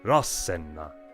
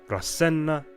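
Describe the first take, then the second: First: The first syllable is heavily stressed. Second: The first syllable is not stressed. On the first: The speaker calls it right. "a heavy accent on their first syllable" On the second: The speaker calls it wrong. "Not Rasenna"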